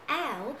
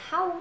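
First: "ow" begun on the vowel, no h; recommended pronunciation. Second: "how" with the h sounded; pronunciation to avoid. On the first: Teacher tells learners how to read it, "ow" without h. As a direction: say "ow" as the linked-speech form. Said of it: "Nhớ đọc là ow". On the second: Teacher warns learners against it, "how" with an h. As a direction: say "how" as a separate, h-initial word. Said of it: "đừng đọc là how". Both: Shown as a demonstration.

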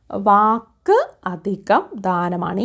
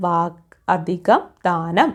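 First: Slow, word by word: വാക്ക് അധികം ദാനമാണ്; teacher slowly splitting വാക്ക് അധികം ദാനമാണ് for the class; slow split into parts. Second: Said in the usual way. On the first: Shown as a demonstration. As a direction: spell out വാക്ക് അധികം ദാനമാണ് slowly, each part apart. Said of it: "വാഗ്ദാനം എന്ന പദം പിരിച്ചെഴുതുന്നത്". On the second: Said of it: "ഈ കായാണ് കേട്ടോ".

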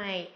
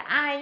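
First: "I" drawn out from an open ah into a short ee; correct long glide. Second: "ai" said quickly, without the long open glide; wrong vowel glide. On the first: Teacher gives students the correct sound, "I" as a long open glide. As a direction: stretch "I", opening wide before gliding to ee. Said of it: "mà là gì". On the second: Teacher warns students off this version, "ai" as a short glide. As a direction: cut "ai" short like an everyday Vietnamese word. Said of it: "Không phải là ai nhá". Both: Shown as a demonstration.

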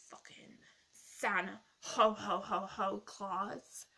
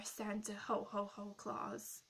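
First: Slow, louder jolly Santa laugh dropped in mid-word; mock Santa ho ho ho. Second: Said in the usual way. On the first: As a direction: ham up a booming Santa 'Ho Ho Ho' inside the name. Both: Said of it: "did you like my joke there".

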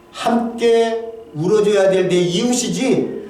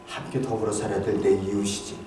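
First: Drawn out slowly, leaning on 함께; slow down and weigh every word; slow emphasis. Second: Much softer, low and hushed, almost to himself; hushed reflection. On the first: Pastor telling the congregation about his neighbors, slow and deliberate. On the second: Pastor murmuring to the congregation about his neighbors, hushed. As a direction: let it sink to a near-murmur. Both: Real, not acted.

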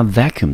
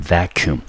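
First: Said in the usual way. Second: Vacuum with the first syllable VAC stressed. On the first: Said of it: "重音节就是落在第一个音节". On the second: Shown as a demonstration. Teacher modeling vacuum for students, stress on VAC. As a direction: lean on the VAC of vacuum, the rest light. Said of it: "它的重音节就是落在第一个音节".

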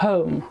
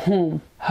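First: Home with a gliding English o; Home, o sliding toward oo. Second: Home with a pure Persian o; wrong flat home. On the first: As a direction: round Home into an ow glide. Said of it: "همون قاعدهٔ او رو داره". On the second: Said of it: "نمیگیم home". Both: Shown as a demonstration.

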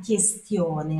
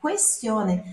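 First: Questione said as kestione, no u; wrong questione. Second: Questione said as kwestione with the u sounded; right questione. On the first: Teacher showing students the wrong questione. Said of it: "não é uma questione". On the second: Teacher giving students the right questione. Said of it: "é uma questione". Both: Shown as a demonstration.

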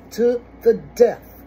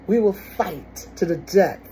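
First: To the death repeated louder and higher, each word hit; stress on to the death. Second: Said in the usual way. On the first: Shown as a demonstration.

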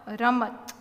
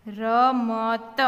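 First: Said in the usual way. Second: Slow, drawn-out letters; sounded out. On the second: Shown as a demonstration. Teacher modelling reading for beginners, sounded out. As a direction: read રમત slowly as ra-ma-ta.

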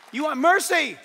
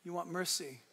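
First: Louder and higher, driving it home; booming preacher emphasis on mercy; loud declaration. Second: Quieter and lower, almost confiding; hushed echo of the line before; soft repeat. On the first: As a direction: proclaim it to the back row. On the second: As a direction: let it land gently after the shout. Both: Shown as a demonstration.

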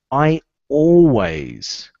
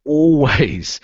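First: "always" drawn out slow and loud; slow emphatic "always"; stress on always. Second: "Always" punched louder on its own; emphatic single "Always"; stress on always. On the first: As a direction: lean hard on "always". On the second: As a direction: hit "Always" as the key word. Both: Shown as a demonstration. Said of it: "what's the word?".

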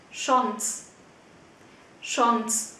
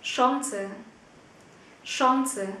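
First: Chance as "shons", final e silent; one-syllable pronunciation. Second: Chance as "SHON-suh", with a sounded final e; two-syllable pronunciation. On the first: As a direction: model "Chance" in one syllable with rounded vowel. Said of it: "hai cách phát âm". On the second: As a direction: model "Chance" with rounded vowel and final schwa. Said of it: "Các bạn hãy nghe mình phát âm nhé". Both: Shown as a demonstration.

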